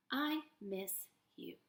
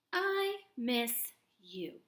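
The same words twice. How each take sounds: First: Soft slow read. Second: Slow read. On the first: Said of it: "quieter repeat". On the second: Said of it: "slow model read". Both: Shown as a demonstration.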